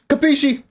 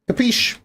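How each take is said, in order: First: The word ends with a vowel after the sh. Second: The word ends on a sh sound.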